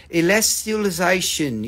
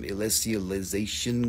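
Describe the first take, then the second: First: ELESTIALIZATION carefully enunciated in a mock smart accent. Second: Said in the usual way. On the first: Shown as a demonstration. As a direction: put on a learned accent for "Elestialization". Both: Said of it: "put on a smart accent for that one".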